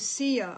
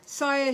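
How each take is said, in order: First: The name is said like 'Sia'. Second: The name is not said like 'Sia'. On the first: The speaker calls it right. "say it like [name]" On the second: The speaker calls it wrong. "I'm sorry if I'm pronouncing it wrong"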